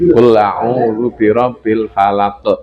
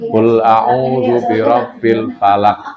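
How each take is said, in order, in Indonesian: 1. Bunyi q terakhir dilepas dengan sedikit memantul. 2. Bunyi q terakhir ditahan di dalam, tidak dilepas. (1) "itu dilepas" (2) "Ini ada yang tertahan di dalam itu"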